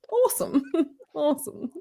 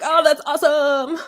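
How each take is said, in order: First: High mock-British echo of "Awesome"; British accent. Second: Enthusiastic American exclamation, higher and louder; American accent. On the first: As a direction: repeat "Awesome" in amused, disdainful English. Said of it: "he did the English accent". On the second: Acted. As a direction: gush like an impressed American. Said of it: "like when we're like".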